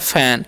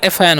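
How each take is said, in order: First: It is said as one single syllable. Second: It is said as two separate syllables. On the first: The speaker calls it right. "एफ का उच्चारण फ करते हैं" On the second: The speaker calls it wrong. "अगर हम एफ का उच्चारण एफ करेंगे तो क्या हो जाएगा"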